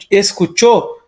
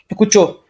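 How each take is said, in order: First: Escuchó with the s said, es-cu-chó; escuchó with its s sounded; full S. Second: Escuchó without the s, like ecuchó; escuchó as ecuchó, s gone; dropped S. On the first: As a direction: pronounce the s in escuchó. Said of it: "em vez de". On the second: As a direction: drop the s in escuchó. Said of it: "escutar apenas escuchó". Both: Shown as a demonstration.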